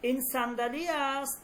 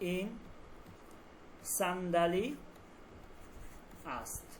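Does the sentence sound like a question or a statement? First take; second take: question; statement. First: It is said with questioning intonation. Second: It is said with plain statement intonation. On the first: It asks whether this is a chair. "তখন এটা প্রশ্নবোধক হয়ে যায়।" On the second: It tells the listener that this is a chair. "এটা একটা চেয়ার, একটা খবর দিচ্ছি।"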